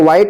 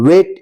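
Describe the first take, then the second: First: The vowel sounds like 'eye'. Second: The vowel sounds like 'ay'. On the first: The speaker calls it wrong. "इसको वाइट मत पढ़िएगा" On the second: The speaker calls it right. "इसको क्या पढ़ेंगे, वेट"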